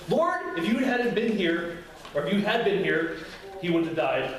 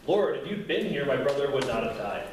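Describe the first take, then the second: First: High, sharp cry of Lord, then pressing, accusing; frustrated reproach. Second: Said in the usual way. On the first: Shown as a demonstration. Martha confronting Jesus, reproachful and frustrated. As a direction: blame him for coming too late. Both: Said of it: "there's two options".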